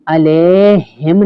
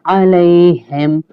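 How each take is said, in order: First: अलैहिम said short as alehem; अलैहिम without the ai glide; flat alehem, wrong way. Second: अलैहिम slow with a clear ai glide; अलैहिम drawn out as aleihim; correct alaihim. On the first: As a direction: show the mistaken अलैहिम. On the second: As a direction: recite अलैहिम the right way. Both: Shown as a demonstration. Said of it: "अलैहिम नहीं पढ़ेंगे".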